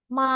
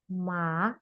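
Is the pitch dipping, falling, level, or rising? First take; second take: level; rising. First: The pitch stays high, level and long. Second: The pitch rises from low to high. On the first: "datar dan panjang" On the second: "agak lebih dari bawah ke atas"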